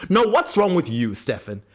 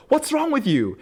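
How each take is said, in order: First: Mock indignation, high start dropping on the name; [name], indignant retort. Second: High-pitched mock exasperation; Stefan, exasperated. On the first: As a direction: turn the accusation back, hammed-up. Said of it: "slips back into one of his Delulu rants". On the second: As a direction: throw it out as an appalled question, pitched right up. Stefan's acted exasperation at [name].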